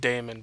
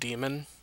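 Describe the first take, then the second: First: The first syllable sounds like 'day'. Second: The first syllable sounds like 'dee'. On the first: This is the speaker's own way of saying it. "I pronounce it daemon because of the A" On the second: This is how many people say it. "I know a lot of people pronounce that demon"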